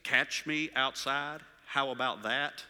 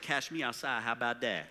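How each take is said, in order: First: "Catch me outside" slowly and fully pronounced; puzzled quote, "Catch" with a clear ch; careful enunciation. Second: Imitated street accent, "Cash" for catch; mock teen street accent, slurring the phrase. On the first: Retold or imitated. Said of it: "did you just say". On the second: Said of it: "this street accent thing".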